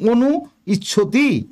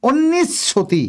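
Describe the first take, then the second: First: The two parts are kept separate. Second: The two parts are joined into one. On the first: The speaker calls it wrong. "অনু ইচ্ছতি ভাবে উচ্চারণ করা ঠিক নয়" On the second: The speaker calls it right. "এই জন্য অন্নিচ্ছতি হয়েছে"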